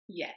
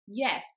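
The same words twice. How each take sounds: First: The word is said with light force. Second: The word is said with more force. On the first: A simple answer. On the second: The answer is meant to convince a doubter.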